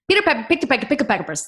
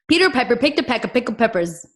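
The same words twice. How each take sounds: First: It is said as fast as possible. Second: It is said a little faster.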